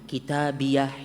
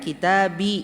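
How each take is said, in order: First: The word ends with an added h sound. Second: The word ends on a vowel. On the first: An added h marks a stop at the end. "harus dibaca seperti ini" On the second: This is the original Arabic form. "aslinya kitabi"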